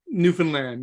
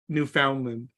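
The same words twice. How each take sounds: First: It follows the rhythm of the word 'telegram'. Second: It does not follow the rhythm of 'telegram'. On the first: The speaker calls it right. "Newfoundland is pronounced like telegram" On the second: The speaker calls it wrong. "not Newfoundland"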